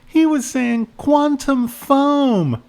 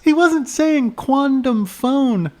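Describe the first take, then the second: First: Put-on high, slow kid saying "foam" with a closing M; high child voice, crisp T in "quantum", M ending "foam"; kid correcting. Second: Put-on high, slow kid saying "phone" with a final N; high child voice, "phone" ending on N; kid correcting. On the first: Kid giving the right word, high voice, "foam" ending in M. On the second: Kid correcting the cop, high voice, "phone" ending in N. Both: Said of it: "the kid said".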